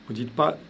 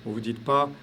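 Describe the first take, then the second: No difference in how they are said.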